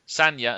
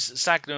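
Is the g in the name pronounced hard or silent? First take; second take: silent; hard. First: The g is silent, giving a nya sound. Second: The g is sounded as a hard g. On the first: The speaker calls it right. "It's not Sagna" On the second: The speaker calls it wrong. "straight away, and I muck it up"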